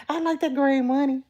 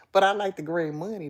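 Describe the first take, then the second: First: Loud, high-pitched insistence; emphatic repeat. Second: Said in the usual way. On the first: Real, not acted. Telling chat she likes money, emphatic repeat. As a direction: drive it home, higher and louder.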